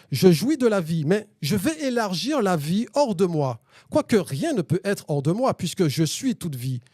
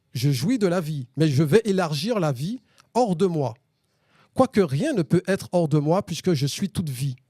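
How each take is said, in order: The two takes are said the same way.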